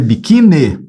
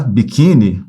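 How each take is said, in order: First: "biquíni" said as bikine, ending in eh; final E sound. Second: "Biquíni" ending in a clear ee sound; final I sound. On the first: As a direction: end "biquíni" on an open-mouthed e instead of ee. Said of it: "paroxítona terminada em E". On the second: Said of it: "escreva com I no final". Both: Shown as a demonstration.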